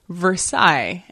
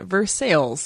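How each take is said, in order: First: The name is said with its French pronunciation. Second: The name is said with an anglicized pronunciation. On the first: This is the name of the original city. "named after a French city" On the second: This is the local town's deliberate variant. "pronouncing it Versailles intentionally"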